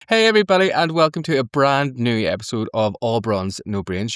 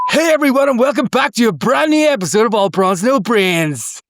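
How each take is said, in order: First: It is said in a calm, normal way. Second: It is said loudly with lots of energy.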